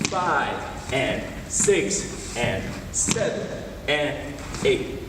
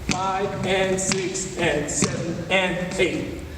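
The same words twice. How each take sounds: First: The counting is very slow. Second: The counting is somewhat faster.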